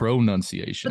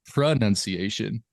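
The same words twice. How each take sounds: First: The second syllable sounds like 'noun'. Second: The second syllable sounds like 'nun'. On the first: The speaker calls it wrong. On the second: The speaker calls it right.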